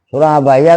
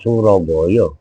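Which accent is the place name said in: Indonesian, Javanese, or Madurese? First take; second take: Indonesian; Javanese. First: It is said in a standard Indonesian accent. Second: It is said in a Javanese accent. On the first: "kalau kata bahasa Indonesia" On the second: "Kalau kata orang Jawa"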